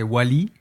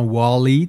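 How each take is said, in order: First: The name is said with a French accent. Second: The name is said with an English accent. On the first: This is the dubbed version. "alors qu'en français, c'est Wally" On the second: This is the original version. "en anglais, il le dit clairement avec l'accent"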